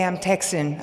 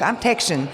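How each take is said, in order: First: Said in the usual way. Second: "Texan" said with a slushy sh in the middle; "Texan" as "Tekshun", relishing the drawn local sound; Texan twang. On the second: Shown as a demonstration. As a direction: say "Texan" like "Tek-shun", playfully. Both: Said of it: "I love to say it like this".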